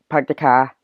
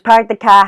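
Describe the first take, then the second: First: It is spoken in a Boston accent. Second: It is spoken in a put-on character voice. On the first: "here's kind of a Bostonian accent" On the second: "character voice"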